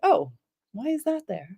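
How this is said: It sounds open and curious.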